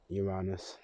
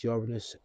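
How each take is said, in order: First: Uranus said as yuh-RAH-nus; Uranus, AH version. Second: Uranus said as YOOR-uh-nus; Uranus, first-syllable stress. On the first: Listing ways people say it, Uranus as yuh-RAH-nus. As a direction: stress an open AH in the middle of Uranus. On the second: Listing ways people say it, Uranus as YOOR-uh-nus. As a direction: stress the opening of Uranus, with a short middle. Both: Shown as a demonstration. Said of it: "people say it how they want".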